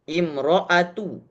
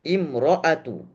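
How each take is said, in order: Both takes have the same delivery.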